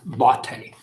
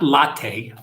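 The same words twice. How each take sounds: First: The name is said as the German name. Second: The name is said in a non-German way. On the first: The speaker calls it right. "which is a uh, German woman's name" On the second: The speaker calls it wrong. "Not latte"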